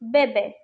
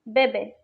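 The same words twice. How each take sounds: No difference in how they are said.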